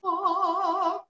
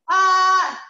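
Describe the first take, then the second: First: Higher open yawning ah; the right, raised-palate vowel; yawny ah. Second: High, louder, slow flat-palate ah; the wrong, unraised vowel. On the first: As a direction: classical open ah. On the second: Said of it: "we don't want ah". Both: Shown as a demonstration.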